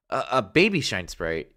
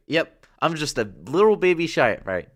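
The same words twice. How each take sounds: First: Said in the usual way. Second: Put-on high and loud, hamming up the little baby; higher, louder cutesy insisting. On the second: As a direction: play it up like a cute baby sprite. Insisting he's a baby sprite.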